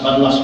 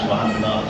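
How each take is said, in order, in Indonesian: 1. Diucapkan dengan cepat dan terpotong pendek. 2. Diucapkan dengan lambat dan utuh. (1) "Kalau subhanallah jadi banlas" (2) "hendaknya kita perlahan"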